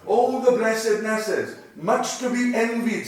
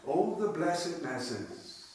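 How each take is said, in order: First: Exclamation. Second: Soft, slow, hushed repeat; quiet slow reading. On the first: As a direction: cry it out in admiration. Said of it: "looking on". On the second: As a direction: savour it softly. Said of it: "nice little phrase". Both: Shown as a demonstration.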